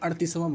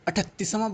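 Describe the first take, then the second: First: The middle consonant is a flapped r sound. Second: The middle consonant is an aspirated t sound. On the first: "generally तो अड़तीसवां ही बोलते हैं" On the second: "अठतीसवां बोलते हैं"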